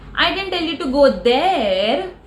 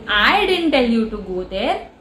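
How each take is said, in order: First: The word "there" carries the main stress. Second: The word "I" carries the main stress. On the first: You were told to go somewhere else. "I might have told you to go somewhere else" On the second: Someone else might have told you. "means somebody else might have"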